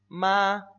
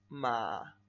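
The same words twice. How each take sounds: First: It is said in the first tone, drawn out. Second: It is said in the third tone, loudly. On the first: "El primer tono se pronuncia... Vamos a hacerlo exagerado, vamos a alargarlo" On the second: "El tercer tono... Más fuerte"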